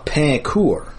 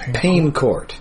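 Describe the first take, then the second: First: The name is pronounced with French sounds. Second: The name is said like English pain court. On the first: The speaker calls it right. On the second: The speaker calls it wrong.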